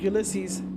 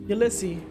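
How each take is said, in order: First: The final S sound is pronounced. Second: The final S sound is left silent. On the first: The speaker calls it wrong. "says the name English style, pronounced the final S" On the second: The speaker calls it right. "I correct this"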